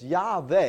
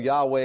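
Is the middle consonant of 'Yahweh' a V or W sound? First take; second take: V; W. First: The middle consonant is a V sound. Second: The middle consonant is a W sound. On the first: "it's Yahweh is the correct pronunciation" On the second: "although Yahweh is accepted because everybody does it"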